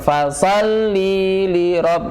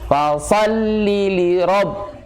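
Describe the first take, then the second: First: The vowel before 'li' is drawn out long. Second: The words run on directly with a short vowel. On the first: The speaker calls it wrong. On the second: The speaker calls it right. "nggak ada jeda"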